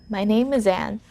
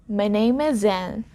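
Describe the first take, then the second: Both takes have the same delivery.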